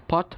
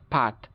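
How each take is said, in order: First: British পট with rounded O; British pronunciation. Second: American পাট (pot) as PAHT; American pronunciation. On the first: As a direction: say পট with lips rounded. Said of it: "ব্রিটিশরা যেসব জায়গায় অ". (পট-এ অ, British উচ্চারণ) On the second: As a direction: open AH in পাট. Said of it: "উচ্চারণ করে আ". (পাট-এ আ, American উচ্চারণ) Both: Shown as a demonstration.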